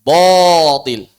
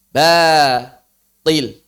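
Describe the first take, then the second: First: Batil said wrongly as botil, rounded and heavy; loud, wrong, rounded botil; wrong thick batil. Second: Batil with a thin, open a; correct thin batil. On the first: Teacher shows the wrong reading of batil. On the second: Teacher gives the right reading of batil. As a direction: say Batil plain and thin after the wrong take. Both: Shown as a demonstration. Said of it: "Jangan dibaca".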